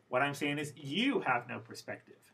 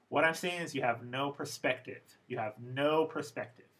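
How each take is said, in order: First: Tavis throws it back, hit "you"; stress on you. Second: "no" gets the falling focus pitch; Bill lectures, lean on "no"; stress on no. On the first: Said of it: "this "you" ... had focus pitch". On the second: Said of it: "try to imitate the intonation he had". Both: Retold or imitated.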